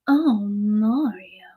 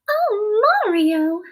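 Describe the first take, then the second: First: It is said in a Bowsette voice. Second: It is said in a Princess Peach voice.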